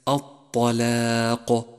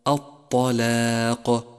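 No difference in how they are said.

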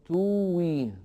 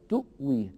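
First: No glottal stop; a long u vowel instead. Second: A glottal stop is pronounced after the u. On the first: This is not how Warsh reads it. The speaker calls it wrong. "فلا يقول ورشون" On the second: This is how Warsh reads it. The speaker calls it right. "وإنما يقول"

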